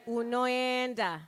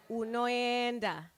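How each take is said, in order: Both takes have the same delivery.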